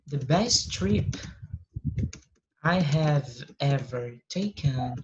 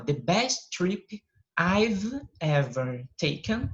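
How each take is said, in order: First: "I have" is said as two full words. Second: "I have" is shortened to "I've".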